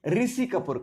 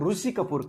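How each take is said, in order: First: The name begins with a 'ri' sound. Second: The name begins with a 'ru' sound. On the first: This is how it is said in UP, Bihar and Delhi. "UP Bihar में दिल्ली की ओर उसे ऋषि कपूर कहते हैं" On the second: This is how it is said in Maharashtra. "उसे महाराष्ट्र में ऋषि कपूर कहते हैं"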